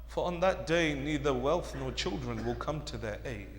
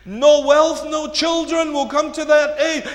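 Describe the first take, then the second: First: Very soft, low solemn delivery; subdued, grave preaching; hushed warning. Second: Loud, high preaching; projected and insistent; forceful warning. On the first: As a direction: let the warning sink in quietly. Translation softly, then repeated loudly. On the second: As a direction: proclaim the warning to the congregation. Warning repeated at full force. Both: Real, not acted.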